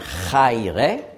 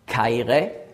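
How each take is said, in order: First: The word begins with a breathy ch sound. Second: The word begins with a hard k sound. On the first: The speaker calls it wrong. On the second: The speaker calls it right.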